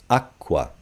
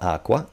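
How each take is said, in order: First: The middle k sound is long and doubled. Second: The middle k sound is short and single. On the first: The speaker calls it right. "You want to say double" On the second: The speaker calls it wrong. "It's not aqua"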